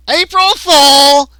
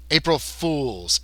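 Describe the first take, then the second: First: High, loud drawn-out cry; gleeful alien prankster. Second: Slow, understated correction; correcting. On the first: Gray springing his prank on captives, high loud gleeful cry. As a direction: stretch it out as a big prank reveal. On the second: Lizard man correcting the gray, slow understated correction. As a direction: stretch FOOLS slowly, no shouting. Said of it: "as if he was correcting the gray". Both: Acted.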